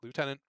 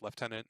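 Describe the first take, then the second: First: The word is said with a non-Canadian pronunciation. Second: The word is said with a Canadian pronunciation. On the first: The speaker calls it wrong. "not lieutenant" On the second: The speaker calls it right. "I'm Canadian, so it's lieutenant"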